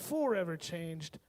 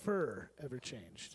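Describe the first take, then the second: First: The first syllable is said as plain 'for'. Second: The first syllable is said like the word 'fur'. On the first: The speaker calls it right. "so you could hear forever changed" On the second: The speaker calls it wrong. "not fur ever changed"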